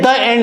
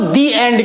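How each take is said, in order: First: 'The' is pronounced with a short 'uh' sound. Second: 'The' is pronounced with a long 'ee' sound. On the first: The speaker calls it wrong. "द end नहीं कहते" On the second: The speaker calls it right. "अब यहां पर हम उसको दी एंड कहते हैं"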